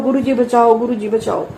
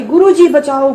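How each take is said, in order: First: पुकार जो धीरे-धीरे धीमी पड़ती है; दोहराती पुकार, अंत में थकी हुई; fading cry for help. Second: ज़ोर से पुकार, मदद के लिए चीख; पूरी आवाज़ में गुरु जी को पुकारना; crying for help. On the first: (गुरु जी को पुकारते हुए आवाज़ का बैठ जाना) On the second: (सपने में डर से गुरु जी को ज़ोर से पुकारना) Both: Retold or imitated. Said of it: "गुरु जी ने पूरी आवाज निकलवाई".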